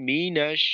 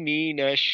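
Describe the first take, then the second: The two takes are said the same way.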